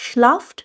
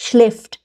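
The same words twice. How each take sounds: First: Schlaft said with a plain a, no umlaut; wrong schlaft. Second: Schläft with the umlaut, like e in bed, slowly; correct schläft. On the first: Teacher shows the mistaken schlaft to students. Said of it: "nicht schlaft". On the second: Teacher models the correct umlaut in schläft. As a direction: stretch schläft out, the ä clearly fronted. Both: Shown as a demonstration.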